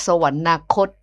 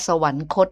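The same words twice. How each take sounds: First: สวรรนาคต with an added na syllable, sa-wan-na-khot; wrong reading. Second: สวรรคต said sa-wan-khot, no extra syllable; correct reading. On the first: Host recalling her old on-air mistake, wrong pronunciation. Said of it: "เขาไม่ได้อ่านว่าสวรรนาคต". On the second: Host quoting the caller uncle's correction, careful correct pronunciation. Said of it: "เขาอ่านว่าสวรรคตนะ". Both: Shown as a demonstration.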